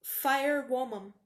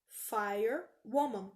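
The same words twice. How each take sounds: First: Firewoman said slowly and clearly; slowed Firewoman; slow model pronunciation. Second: Firewoman said very slowly; slow model pronunciation. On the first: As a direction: Firewoman drawn out, each syllable given its due. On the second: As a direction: Firewoman stretched out for the learners. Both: Shown as a demonstration. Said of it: "Pra falar bombeira".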